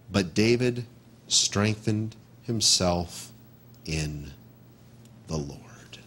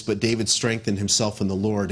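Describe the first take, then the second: First: Slow, lower, fading into a whisper; reverent slow reading. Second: Said in the usual way. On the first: Shown as a demonstration. Pastor reads the verse to the congregation, fading into a whisper. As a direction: let the verse sink to a hushed whisper.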